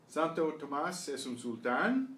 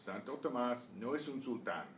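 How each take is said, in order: First: "¿Santo Tomás es un sultán?" higher and louder, rising at the end; question tune. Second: "Santo Tomás no es un sultán" as a statement, falling at the end; answer tune. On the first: Teacher quizzing students, "¿Santo Tomás es un sultán?" with rising question tune. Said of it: "answer the questions as I read them". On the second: Teacher answering the quiz, "Santo Tomás no es un sultán" with falling statement tune. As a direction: let "sultán" drop to close the answer. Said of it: "answer the questions". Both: Shown as a demonstration.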